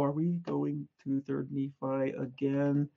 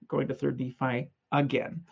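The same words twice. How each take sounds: First: Quiet, slow, whiny "Are we going to Third Nephi again?"; mock weary groan. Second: Said in the usual way. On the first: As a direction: mimic a bored student complaining. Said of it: "I know at least half of you go". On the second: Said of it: "And the answer is".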